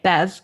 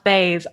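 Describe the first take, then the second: First: The vowel sounds like the one in 'bed'. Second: The vowel sounds like the one in 'bay'. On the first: The speaker calls it wrong. "I was calling it Bez" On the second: The speaker calls it right. "it's pronounced Bays"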